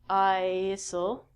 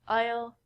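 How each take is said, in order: First: The S is pronounced in the word. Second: The S is not pronounced at all. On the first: The speaker calls it wrong. "We don't say" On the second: The speaker calls it right. "The S in these words are silent. We say"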